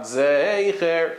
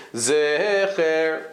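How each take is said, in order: First: "Zecher" as drawn-out ZAY-cher; classic long A. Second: "Zecher" as drawn-out ZEH-cher, no glide; Vilna Gaon tserei. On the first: Teacher showing what he did not say, gliding ay. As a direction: stretch "Zecher" with a clear ay glide. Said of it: "Not Zecher, he said Zecher". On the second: Teacher showing what he said, unglided eh. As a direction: hold a pure close eh in "Zecher". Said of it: "he said Zecher". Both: Shown as a demonstration.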